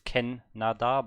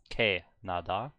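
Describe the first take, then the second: First: The first syllable sounds like 'ken'. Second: The first syllable sounds like 'kae'. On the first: The speaker calls it wrong. "I thought it's Ken Nada" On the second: The speaker calls it right. "but it's uh, K Nada"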